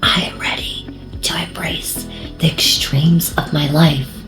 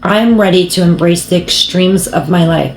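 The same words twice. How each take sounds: First: It is spoken in a whisper. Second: It is spoken in a normal voice.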